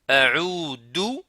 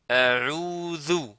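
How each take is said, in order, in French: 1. La consonne du milieu est un simple son d. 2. La consonne du milieu est un th doux. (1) "dou avec la lettre del" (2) "alors que ici c'est zel"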